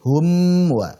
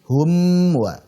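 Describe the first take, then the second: First: The m sound is pronounced clearly. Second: The same.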